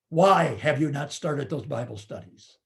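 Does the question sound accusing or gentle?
accusing. The question sounds harsh and accusing. The leader is being blamed for failing. The speaker calls it wrong. "we do not say to that leader"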